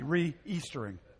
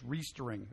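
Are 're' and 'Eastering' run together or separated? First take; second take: separated; run together. First: The prefix is set apart from the word. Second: The prefix runs straight into the word without break. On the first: Easter happens again. The speaker calls it right. "You got to have that little hyphen" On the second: The word makes no sense. The speaker calls it wrong. "otherwise it's just re-Eastering"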